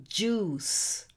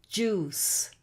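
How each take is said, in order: Both takes have the same delivery.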